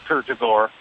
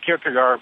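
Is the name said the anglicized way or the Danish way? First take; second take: Danish; anglicized. First: The name is said the Danish way. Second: The name is said the common anglicized way. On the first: The speaker calls it right. "but it's Kierkegaard" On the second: The speaker calls it wrong. "People say Kierkegaard"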